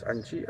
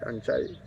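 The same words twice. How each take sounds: First: "Anchi" with a short "chi" ending; wrong pronunciation. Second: "Anchai" ending in "chai" like chai tea; right pronunciation. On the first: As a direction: say "Anchi" with a plain "chi" like in cheese. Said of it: "you can pronounce it like Anchi, which is not really correct". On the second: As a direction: say "Anchai" with the "ai" sound at the end. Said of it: "It's Anchai". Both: Shown as a demonstration.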